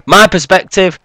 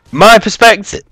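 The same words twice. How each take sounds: First: "perspective" said in full, ending on -tive; corrected word. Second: "perspective" cut short, ending on the t; clipped slip of the tongue. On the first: Correcting himself after the slip, said clearly. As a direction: redo "perspective" cleanly to the end. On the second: A quick stumble on the word mid-commentary. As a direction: fumble "perspective" and drop its last syllable. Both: Real, not acted. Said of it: "uh, pardon me".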